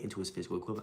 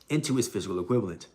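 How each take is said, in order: First: It is read fast. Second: It is read slowly.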